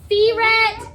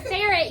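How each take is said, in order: First: "ferret" said as fee-ret; long ee in the first syllable of "ferret"; misread spelling. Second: Said in the usual way. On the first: Shown as a demonstration. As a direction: mispronounce "ferret" as FEE-ret, a bit louder. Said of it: "if I only put a E T". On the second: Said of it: "when you say the word ferret".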